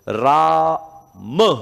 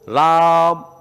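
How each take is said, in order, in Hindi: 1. अंतिम म के बाद एक छोटा स्वर बोला जाता है। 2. अंतिम म छोटा कटा हुआ बोला जाता है, कोई स्वर नहीं। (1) "अब मैं जब राम मैं पूरा लिखूंगा तो राम कैसे बोलूंगा" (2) "मैं थोड़ा सा बोलना पड़ा क्योंकि अधूरा है"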